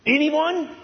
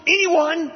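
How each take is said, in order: First: High, ringing dare to the room; Paul's defiance voiced by the preacher; defiant challenge. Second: High, ringing dare thrown out once more; Paul's defiance voiced by the preacher; defiant challenge. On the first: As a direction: call out and wait for no answer. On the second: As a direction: press the dare home. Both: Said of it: "That's the scene, the tone".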